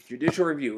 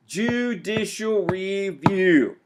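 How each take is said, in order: First: Said in the usual way. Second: JUDICIAL REVIEW stretched out slowly and higher; slow, raised "Judicial review" for emphasis; emphatic key term. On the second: Shown as a demonstration. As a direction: draw out "Judicial review" word by word. Key term announced to class.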